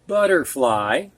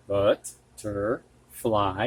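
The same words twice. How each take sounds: First: Said in the usual way. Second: Butterfly. drawn out syllable by syllable, softer; slow syllables. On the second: Shown as a demonstration. Teacher to students, slowly sounding out butterfly. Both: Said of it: "modelling the compound word".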